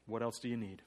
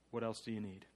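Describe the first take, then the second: No difference in how they are said.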